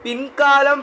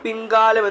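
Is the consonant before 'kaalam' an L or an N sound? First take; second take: N; N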